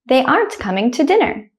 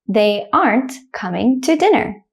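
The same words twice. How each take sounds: First: The sentence is said quickly and smoothly. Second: The sentence is said slowly and carefully. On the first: "the second time I'll say it quickly like a native speaker" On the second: "I'll say the first one slowly"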